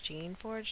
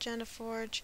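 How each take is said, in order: First: The first part sounds like 'jeen'. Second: The first part sounds like 'jenny'. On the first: The speaker calls it right. "it's Geneforge" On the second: The speaker calls it wrong. "not Jenniforge"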